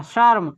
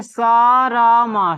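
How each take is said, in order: First: शर्म said quickly in one syllable; शर्म as one short, closed syllable; joined reading. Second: शरम stretched very slowly and louder, sha-ram; शरम as a slow, loud sounding-out; drawn-out syllables. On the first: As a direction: say शर्म briskly as sharm. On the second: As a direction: draw out शरम slowly, spelling its parts. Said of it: "क्या पढ़ेंगे". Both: Shown as a demonstration.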